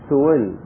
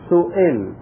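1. الصوت الأوسط بين الهمزة والواو. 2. الصوت الأوسط همزة تامة. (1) "بين الهمزة وبين الواو" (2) "ونظهر الهمزة إظهارا تاما"

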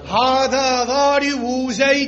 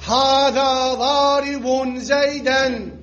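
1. 'Darib' يتصل مباشرةً بـ'Zayd' دون 'n'. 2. 'Darib' ينتهي بصوت 'n'. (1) "بعد الإضافة ... يا لخف بلسانك" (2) "قبل الإضافة"

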